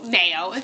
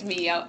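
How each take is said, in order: First: The name is said like the word 'mayo'. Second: The name is said like the letters 'Mio'. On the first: The speaker calls it wrong. "It's not Mayo" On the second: The speaker calls it right. "I think it's Mio, M I O"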